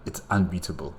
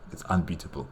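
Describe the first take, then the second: No difference in how they are said.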